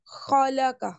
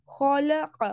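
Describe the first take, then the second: First: خلق as "khalaka", a light k for the q; no throat sound at the end of خلق; mispronounced thin k. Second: خلق as "khalaqa" with q from the throat; throaty full qaf. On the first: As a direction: say خلق with a plain front k. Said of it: "لیکن اگر ہم اس کو کہیں گے". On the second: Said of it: "قوف کو حلق سے آواز نکالنی ہے". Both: Shown as a demonstration.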